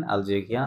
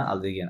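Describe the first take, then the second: First: আলজেরিয়া rising to an open nasal "-ya", no N; আলজেরিয়া, final N silent; masculine nasal ending. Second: আলজেরিয়ান ending "-yen" with a sounded N; আলজেরিয়ান, final N pronounced; feminine -enne ending. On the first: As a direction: say আলজেরিয়া with a held nasal last vowel. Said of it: "male female আলাদা করে বলবো". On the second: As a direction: say আলজেরিয়ান low and soft, closing on N. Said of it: "অতিরিক্ত এন plus ও". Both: Shown as a demonstration.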